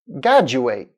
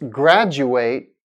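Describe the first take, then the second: First: The r after the g is dropped. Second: The r after the g is pronounced. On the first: The speaker calls it wrong. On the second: The speaker calls it right.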